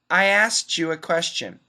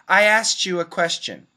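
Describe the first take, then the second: First: The K drops and T blends with Y. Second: The K drops and T blends with Y.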